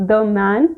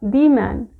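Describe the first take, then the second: First: "the" said as "thuh" before man; quick "thuh man"; the with short uh. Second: "the" said as "thee" before man, very slow; drawn-out "thee man". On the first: Teacher contrasting two ways of saying the, short "thuh". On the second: Teacher contrasting two ways of saying the, slow "thee". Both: Shown as a demonstration. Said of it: "मैंने ये particular word कैसे बोला है".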